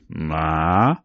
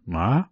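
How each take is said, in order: First: The pitch falls and then rises. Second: The pitch rises steadily. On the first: "the third tone, which falls and rises" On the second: "it becomes a rising tone, the second tone"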